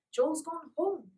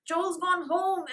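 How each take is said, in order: First: High, slow echo; stunned echo. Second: High, slow, loud; distressed announcement. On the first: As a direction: repeat it in shock. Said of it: "echoed Polly". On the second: Francie telling Polly Joel has left. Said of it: "announced Francie". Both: A narrator's reading.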